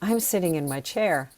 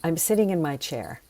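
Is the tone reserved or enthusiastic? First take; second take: enthusiastic; reserved. First: It is said outwardly, with shared enthusiasm. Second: It is said inwardly, in a reserved way.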